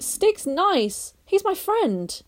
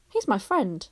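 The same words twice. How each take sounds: First: Put-on higher boyish voice, firm; a boy standing up for his friend; Barney voice. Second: Said in the usual way. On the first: A narrator's reading. Barney insisting to Lou, higher firm boy voice.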